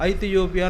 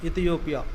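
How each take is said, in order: First: The word begins with an 'ai' vowel. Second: The word begins with an 'i' vowel. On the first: This is the older form written in the text. "ఐథియోపియా అని అక్కడ రాశారు" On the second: This is how it is said nowadays. "మన కాలంలో దాని పలుకు పలకడం మారిపోయింది"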